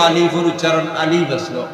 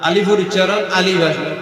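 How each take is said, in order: Both takes have the same delivery.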